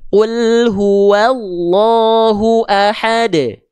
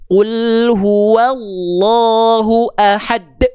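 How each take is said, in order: First: The final 'd' is released with a light bounce. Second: The final 'd' is cut off with an abrupt stop. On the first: The speaker calls it right. "pantulkan dengan ringan saja" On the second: The speaker calls it wrong. "Jangan gini"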